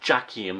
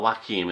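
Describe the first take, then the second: First: The name begins with an English J sound. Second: The name begins with a Y or W-like sound. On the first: This is the Portuguese way of saying it. The speaker calls it right. "The J is pronounced as a J" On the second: This is the Spanish way of saying it. The speaker calls it wrong. "rather than a YW, the way it's pronounced in Spanish"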